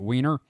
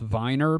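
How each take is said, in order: First: The name begins with a w sound. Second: The name begins with a v sound. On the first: This is how the locals say it. "everybody calls it Wiener" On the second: This is the original German pronunciation. "It's supposed to be pronounced Viner because it's founded by a bunch of Germans"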